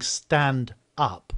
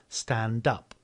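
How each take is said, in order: First: The two words are said separately, not linked. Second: The final d runs into the following vowel. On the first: The speaker calls it wrong. "instead of saying" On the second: The speaker calls it right. "the consonant moves to the next word"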